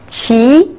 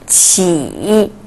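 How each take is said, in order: First: The pitch rises from mid to high. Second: The pitch dips low then rises.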